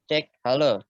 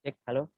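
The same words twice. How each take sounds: First: The voice is loud, almost shouting. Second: The voice is quiet and soft. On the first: The speaker calls it right. "Kedengeran nggak kalau kakak kayak gini? ... Berarti mesti teriak ya" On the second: The speaker calls it wrong. "suaranya kecil ya tadi ya"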